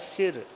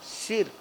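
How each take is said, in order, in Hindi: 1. स्वर छोटी 'i' की आवाज़ है। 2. स्वर छोटी 'i' की आवाज़ है।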